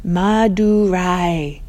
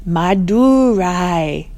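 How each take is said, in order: First: "Madurai" slow, falling, ma-du-rai; drawn-out syllables. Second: "Madurai" slow, syllable by syllable, ma-du-rai; drawn-out syllables. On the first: Chloe trying out the name, slow. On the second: Bella trying out the name, slow. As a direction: sound out "Madurai" carefully. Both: Acted. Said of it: "overlapping rais and dus and mas".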